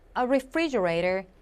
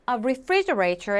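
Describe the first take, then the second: First: It is said with an American accent. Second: It is said with a British accent. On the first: "아까 미국 영어 같은 경우에는" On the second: "근데 영국 영어에서는 어떻게 발음한다? ... 이렇게 되죠"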